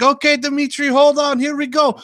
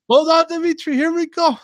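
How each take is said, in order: First: High, loud hammed-up Eastern European worker voice; mock Eastern European accent. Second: Very high, loud hammed-up Eastern European worker; mock Eastern European accent. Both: A worker on the ladder, in a hammed-up Eastern European accent. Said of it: "people from Eastern Europe or something".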